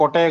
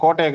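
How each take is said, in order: First: கொட்டையை said with a short first vowel, a slip; slip of the tongue. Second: கோட்டையை said with a long first vowel, corrected; self-correction. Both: Real, not acted. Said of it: "சீ, கோட்டையை".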